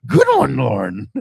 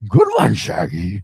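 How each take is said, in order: First: Amused praise. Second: Low cartoon-dog voice; rumbly rising dog catchphrase; Scooby-Doo. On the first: Real, not acted. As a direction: crack up while congratulating. Host laughing at co-host's attempt. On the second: Host as cartoon dog to his buddy, low impression. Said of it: "To Scooby-Doo".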